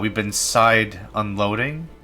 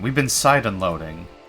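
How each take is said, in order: First: It rises at the end like a question. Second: It falls at the end like a statement.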